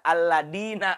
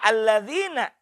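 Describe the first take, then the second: First: The middle consonant is a plain 'd' sound. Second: The middle consonant is a voiced 'th' sound. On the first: "Da alladina misalnya. Itu. Tidak sah" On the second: "Zal. Huruf za. Pada kata alladzina"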